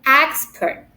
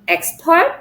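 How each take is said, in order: First: The stress is on the first syllable. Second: The stress is on the second syllable. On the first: The speaker calls it right. "but expert" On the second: The speaker calls it wrong. "not expert"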